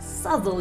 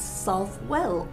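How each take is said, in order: First: The w sound is dropped, sounding like Southall. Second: The w sound and full second part are pronounced. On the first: "Southall is a pronunciation which some quaint and archaic people are prattling on about" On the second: "because that's how it's written"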